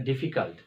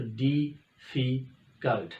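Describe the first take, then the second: First: Said in the usual way. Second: difficult said very slowly, syllable by syllable; slow difficult with a break between each syllable; syllables broken apart. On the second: Shown as a demonstration. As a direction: pull difficult apart into its three beats. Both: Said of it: "तो ये दो दफ़ा sound break आया है".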